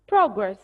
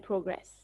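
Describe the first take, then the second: First: "Progress" as PROG-ress, first syllable punched; noun stress. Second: "progress" as pro-GRESS, second syllable stressed; verb stress. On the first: Teacher showing class the noun form, stress on first syllable. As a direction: hit PROG hard in "Progress". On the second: Teacher showing class the verb form, stress on second syllable. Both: Shown as a demonstration. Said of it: "they are pronounced differently".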